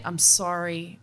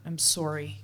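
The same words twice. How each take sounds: First: "sorry" said as SAH-ree, open ah vowel; plain sorry. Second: "sorry" said as SORE-ee, rounded o vowel; Canadian sorry. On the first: Plain "sorry" to grad students, before the Canadian one. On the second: Apologizing to grad students with a Canadian "sorry". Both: Shown as a demonstration. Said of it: "Canadian sorry".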